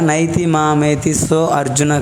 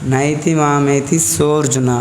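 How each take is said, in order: First: So and arjuna are said as two separate words. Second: So and arjuna merge into one word, sorjuna. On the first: The speaker calls it wrong. "ఇక్కడ నైతి మామేతి సో అర్జున కాదు" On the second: The speaker calls it right. "పలికేటప్పుడు సోర్జున అని పలకండి"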